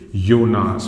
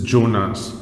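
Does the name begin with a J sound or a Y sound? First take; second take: Y sound; J sound. First: The name begins with a Y sound. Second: The name begins with a J sound. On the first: This is how the name is said in German. "in German, the letter J has a pronunciation same as that of letter Y" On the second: This is how the name is said in English. "if I say this name in English"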